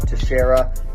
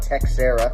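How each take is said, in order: First: The name is said the accepted way. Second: The name is said the rejected way. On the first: The speaker calls it right. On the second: The speaker calls it wrong.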